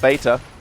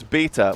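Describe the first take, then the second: First: The first vowel has an 'ay' sound. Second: The first vowel has no 'ay' sound. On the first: The speaker calls it wrong. "It's not beta" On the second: The speaker calls it right. "that's that's how you say it. There's no A in it"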